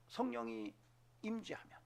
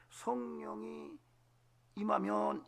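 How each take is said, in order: First: Said in the usual way. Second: Drawn-out hushed whisper, slow; hushed reverent whisper. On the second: Shown as a demonstration. Pastor to congregation, slow reverent whisper. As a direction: breathe it out slowly like a secret. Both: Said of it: "이렇게 말하는 거예요".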